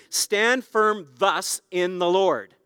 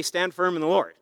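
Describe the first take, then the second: First: Slow, with weight on "thus"; stress on thus. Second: Said in the usual way. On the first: Shown as a demonstration. Preacher reading the verse to his church, slow and weighty on "thus". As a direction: lean on the word "thus", slowly. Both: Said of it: "why don't they just say".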